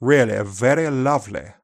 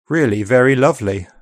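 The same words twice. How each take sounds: First: Upper RP accent. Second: Said in the usual way. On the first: Shown as a demonstration. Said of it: "whereas in upper R P". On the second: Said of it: "In G B".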